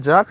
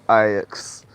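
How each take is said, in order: First: The name is said as one syllable. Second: The name is said as two syllables. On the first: The speaker calls it wrong. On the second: The speaker calls it right.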